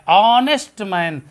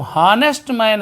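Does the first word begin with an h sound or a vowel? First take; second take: vowel; h sound. First: The first word begins with a vowel sound. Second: The first word begins with an h sound. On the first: The speaker calls it right. "यच silent हो जाता है, तो बड़ा आ का ध्वनि यहां आता है" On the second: The speaker calls it wrong. "लिखा तो हानेस्ट मैन है"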